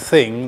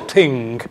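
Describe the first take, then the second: First: It starts with a standard th sound. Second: It starts with a t sound, Dublin style.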